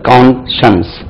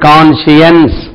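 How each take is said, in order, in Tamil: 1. இந்த வார்த்தை இரண்டு அசையாக உச்சரிக்கப்படுகிறது. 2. இந்த வார்த்தை மூன்று அசையாக உச்சரிக்கப்படுகிறது. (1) "கான்ஷன்ஸ் ரைட்" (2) "இதுக்கு கான்ஷியன்ஸ் சொல்லக்கூடாது"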